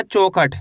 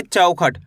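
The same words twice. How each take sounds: First: चौखट said as "chokhat", with a plain o; mispronounced vowel. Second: चौखट said as "chaukhat", with an au glide; full au vowel. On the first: Teacher warns learners off a misreading, चौखट said "chokhat" with o. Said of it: "ऐसे नहीं पढ़ना". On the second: Teacher models the reading for learners, चौखट said "chaukhat" with au. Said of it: "कैसे पढ़ेंगे?". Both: Shown as a demonstration.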